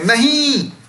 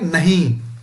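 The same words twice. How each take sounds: First: It is said as a strong exclamation. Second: It is said in a plain, ordinary way.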